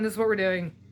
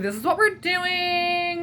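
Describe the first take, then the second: First: It is said in a plain natural tone. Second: It is said in an exaggerated fake tone.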